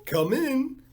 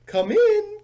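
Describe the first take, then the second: First: The echo call, less loud, still from far off; softer faraway call. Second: High, loud call from far off; faraway call. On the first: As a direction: let the second one trail nearer. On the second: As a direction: shout it from the back of the house. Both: Acted. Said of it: "called a faraway voice".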